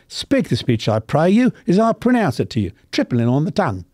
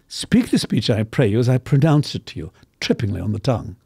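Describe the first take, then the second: First: It is said in a working-class English accent. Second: It is said in an upper-class British accent.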